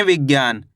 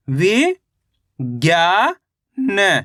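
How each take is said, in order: First: Said in the usual way. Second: "वि, ज्ञा, न" broken into stretched single syllables; अक्षर-दर-अक्षर उच्चारण. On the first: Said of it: "कैसे पढ़ेंगे?". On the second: Shown as a demonstration. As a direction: sound out "वि", "ज्ञा", "न" separately with pauses between. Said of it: "एक अक्षर का उच्चारण ही तो करना". ("वि, ज्ञा, न" को रुक-रुककर अलग बोलना)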